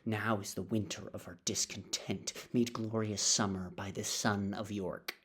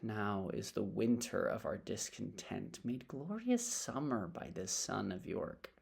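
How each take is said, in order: First: It is delivered as plain, flat anger. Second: It is delivered with a sigh and reflective feeling.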